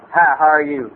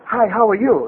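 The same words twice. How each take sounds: First: Low-pitched cowboy-bar regular; Ernie. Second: Imitating a little guy at a Japanese bar. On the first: Retold or imitated. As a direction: imitate a barfly's low greeting. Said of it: "old Ernie will come up next to me and go". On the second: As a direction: mimic the little fellow's greeting. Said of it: "some little guy go".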